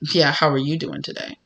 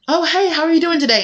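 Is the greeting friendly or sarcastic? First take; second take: sarcastic; friendly. First: It is said in a sarcastic, snide tone. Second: It is said in a friendly, warm tone.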